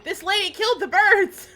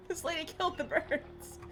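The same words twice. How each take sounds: First: High, loud exclamation; real startled yell; loud outburst. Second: High-pitched repeat, laughter around it; high, giggly disbelief; amused disbelief. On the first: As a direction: cry it out, pitched way up. Outburst at birds being killed. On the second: Repeats outburst softer, amid laughter. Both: Real, not acted.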